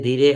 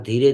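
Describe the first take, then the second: No difference in how they are said.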